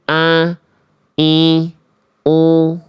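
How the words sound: The vowels are nasal and resonate in the nose. The speaker calls it wrong. "Itu hamzah yang disengau-sengaukan"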